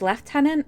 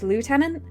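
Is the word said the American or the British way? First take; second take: British; American. First: The word is said with the British pronunciation. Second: The word is said with the American pronunciation. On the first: "British English is lieutenant" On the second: "American English is lieutenant"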